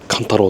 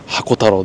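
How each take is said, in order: First: The name begins with the syllable 'kan'. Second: The name begins with the syllables 'hako'. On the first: The speaker calls it right. "カンタロウです。" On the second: The speaker calls it wrong. "ではないです"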